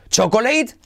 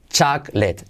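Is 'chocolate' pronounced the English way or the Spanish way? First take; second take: Spanish; English. First: The word is pronounced with Spanish sounds. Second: The word is pronounced with English sounds. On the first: The speaker calls it wrong. "¿He oído chocolate? No" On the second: The speaker calls it right.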